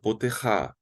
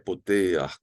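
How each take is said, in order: First: The word ends with a 'ha' sound. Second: The word ends with an 'ach' sound. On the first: The speaker calls it wrong. "Não digo poterra" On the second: The speaker calls it right. "que é poteach"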